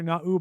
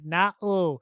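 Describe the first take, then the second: First: It is said in a normal voice. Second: It is said in a nerdy voice.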